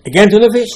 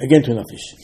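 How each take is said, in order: First: High, loud fed-up cry of "again tuna fish"; louder and louder exasperation until the lunch complaint bursts out; exasperated outburst. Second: Said in the usual way. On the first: Retold or imitated. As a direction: blow up over "again tuna fish" at last. Worker grumbling over lunch.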